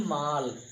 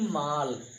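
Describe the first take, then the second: First: The vowel is an open, unrounded 'ah'. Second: The vowel is an open, unrounded 'ah'.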